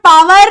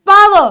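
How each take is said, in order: First: "power" as paa-VAR, final r sounded; wrong pronunciation. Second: "power" as PAA-va, silent r; correct pronunciation. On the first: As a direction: drag "power" out with a full r. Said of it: "it is not". ("power" ग़लत, पावर का र पूरा बोलकर) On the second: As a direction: end "power" on a short vowel, no r. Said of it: "it is". ("power" सही, आख़िरी र खाकर) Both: Shown as a demonstration.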